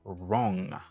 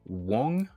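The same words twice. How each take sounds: First: No W sound is pronounced at the start. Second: A W sound is pronounced at the start. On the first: The speaker calls it right. "ou dit wrong" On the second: The speaker calls it wrong. "Ou pas dit wrong"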